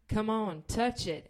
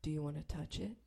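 First: Pushy coaxing. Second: Low, soft invitation; imitated hushed come-on; creepy proposition. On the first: Retold or imitated. Pressing the proposition. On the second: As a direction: murmur it as a sleazy offer.

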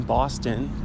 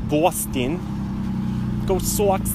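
First: Said in the usual way. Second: Boston accent, Bahstin; Boston sports fan accent. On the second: Shown as a demonstration. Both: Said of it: "That's my Boston accent".

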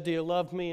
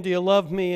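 First: Said in the usual way. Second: The third asking, clearly louder and higher; pressing louder. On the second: Retold or imitated. Jesus asking Peter a third time, louder and pleading. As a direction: press the question home with force.

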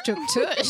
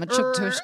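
First: Chuk tush squeaked in a very high voice; squeaky high. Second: Said in the usual way. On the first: Shown as a demonstration. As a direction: squeal chuk tush as a silly cartoon peep.

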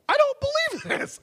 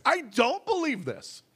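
First: Much higher, anguished cry of the line; desperate cry. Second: Said in the usual way. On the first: Pretend. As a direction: cry it out in despair. Repeated confession in prayer.

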